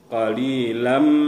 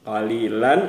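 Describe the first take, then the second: First: The final n sound is merged into m. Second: The final n sound is clearly pronounced. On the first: The speaker calls it right. "di sini kita baca masuk ke bunyi mim" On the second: The speaker calls it wrong. "kalau kita baca qalilan itu terdengar jelas bunyi tanwinnya"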